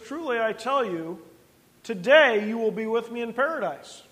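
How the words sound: The pause comes before the word today.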